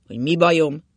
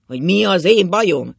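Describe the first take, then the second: First: Loud echoed question; indignant retort. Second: Much louder, higher retort; heated indignation. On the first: Drunk husband answering his worried wife, loudly indignant. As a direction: fling the question back forcefully. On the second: Drunk husband challenging his wife, shouting indignantly. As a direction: build to a shouted challenge, leaning on "én". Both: A narrator's reading.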